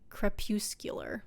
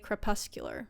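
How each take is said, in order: First: The middle syllable does not sound like 'pus'. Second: The middle syllable sounds like the word 'pus'. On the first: "to me it looks like crepuscular" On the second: "that kind of sounds like pus"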